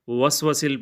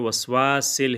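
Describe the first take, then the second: First: The second vowel is said short. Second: The second vowel is stretched long. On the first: The speaker calls it wrong. "वसवसिल पढ़ते हैं" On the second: The speaker calls it right. "वसवासिल है ये"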